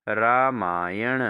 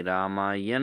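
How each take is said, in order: First: रामायण drawn out, ending in retroflex n; correct pronunciation. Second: रामायण slowly, ending in plain n; wrong pronunciation. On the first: Teacher answers for students, रामायण slowly with retroflex n. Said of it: "क्या होता है शुद्ध रूप?". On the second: Teacher shows students the error, रामायण with plain n. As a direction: say रामायण as "raamaayan", dental n. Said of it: "नहीं होता". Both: Shown as a demonstration.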